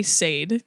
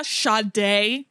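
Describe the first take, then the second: First: "[name]" said as one syllable, sayd; spelling-style pronunciation. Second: "[name]" said as sha-DAY; name pronunciation. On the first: Shown as a demonstration. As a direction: say "[name]" to rhyme with made. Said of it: "that's why I say [name]". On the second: Retold or imitated. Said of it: "I say".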